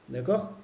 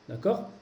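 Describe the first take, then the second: No difference in how they are said.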